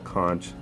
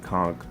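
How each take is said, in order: First: The word is pronounced the other common way. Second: The word is pronounced the Caribbean way. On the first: This is how some other people say it. "for whoever pronounces it uh, that way" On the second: This is how people from the Caribbean say it. "I come from the Caribbean, so we say a conch"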